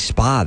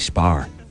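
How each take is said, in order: First: It ends in a vowel with no R. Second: It ends with an added R sound. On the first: "they don't say spa" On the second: "they say spar. They'll put the R"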